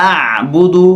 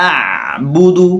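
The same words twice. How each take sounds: No difference in how they are said.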